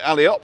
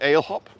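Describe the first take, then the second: First: The name is said the non-British way. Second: The name is said the British way.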